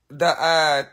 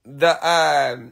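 No difference in how they are said.

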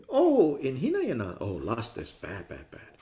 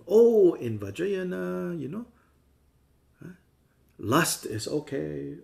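First: A prissy "bad, bad" fading away; mock prim scolding. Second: Higher, louder, slow and indulgent; mock permissive voice. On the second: Teacher parodying lax Vajrayana students, in a slow, high, indulgent voice. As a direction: drawl out the lax excuse in a high voice. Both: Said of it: "But it doesn't mean".

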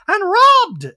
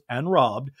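First: High, loud interjection in a mock voice; Dorit. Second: Said in the usual way. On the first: Dorit interjects while Garcelle speaks, high loud impression. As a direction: cut in with a high, hammed-up cry. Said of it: "Dorit interjects". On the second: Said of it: "Garcelle goes".

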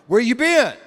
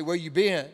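First: Loud, accusing demand, words punched; like a parent who already knows the answer; accusing parent bellowing where you been; stern accusing. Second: Suspicious parent. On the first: Acted. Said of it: "you gotta hear this tone". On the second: Retold or imitated. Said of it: "You ever have a parent, when the parents say".

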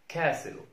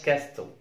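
First: كاسل said "kassel", no T; كاسل with the T left silent; correct silent T. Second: كاستل with a clear T, "kas-tel"; كاستل, the silent T sounded out; wrongly sounded T. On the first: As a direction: say كاسل straight from S to L. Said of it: "اسمها". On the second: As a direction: mispronounce كاستل with T after S. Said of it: "ما اسمهاش كاستل". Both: Shown as a demonstration.

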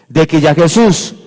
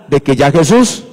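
The two takes are said the same way.

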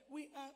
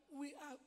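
The two takes are said the same way.

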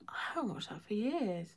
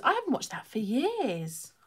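First: Almost silent whisper, much softer; barely audible fond whisper; fainter whisper. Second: Hushed, fond whisper; whispered aside. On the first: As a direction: let it fade to a breath. Repeats it even more hushed. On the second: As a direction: say it to yourself under your breath. Wistful aside about an old film. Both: Real, not acted.

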